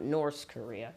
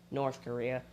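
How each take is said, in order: First: "North" said with an s at the end, like "Norse". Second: Said in the usual way. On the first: Shown as a demonstration. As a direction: slip to an s in the th of "North". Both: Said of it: "Not North Korea".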